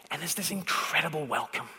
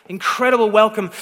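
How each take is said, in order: First: Said softly, almost under the breath, the word incredible held and falling; a soft, wondering first take of incredible welcome; hushed awe. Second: Incredible punched louder, with a falling close; emphatic repeat. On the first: Preacher savouring the welcome, softly and in awe. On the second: Preacher driving home the welcome, louder and emphatic. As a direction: hit Incredible hard on the repeat. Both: Shown as a demonstration.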